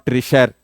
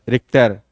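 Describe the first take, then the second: First: The middle consonant is a 'ch' sound. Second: The middle consonant is a 'k' sound. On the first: The speaker calls it wrong. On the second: The speaker calls it right. "This is"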